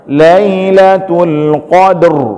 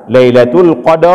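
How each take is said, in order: First: The final r is a brief vibration. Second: A full vowel follows the final r. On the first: The speaker calls it right. "yang kita baca itu getarannya saja" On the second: The speaker calls it wrong. "jangan juga kita baca Lailatul Qadar, bukan ra"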